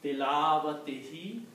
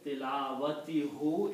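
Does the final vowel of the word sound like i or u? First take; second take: i; u. First: The word ends with an i vowel. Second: The word ends with a u vowel. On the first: The speaker calls it right. "recite this as a kasra, not as a dhamma ... it comes easy on the tongue" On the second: The speaker calls it wrong. "When people pronounce it this way, it is not easy on the tongue"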